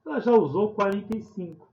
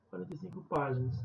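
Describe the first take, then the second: First: "quarenta e cinco" dito mais alto e acentuado; ênfase em quarenta e cinco. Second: Said in the usual way. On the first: Shown as a demonstration. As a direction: destaque o número "quarenta e cinco", mais forte. (professora lendo o problema, destacando "quarenta e cinco") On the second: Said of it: "repetição mais rápida".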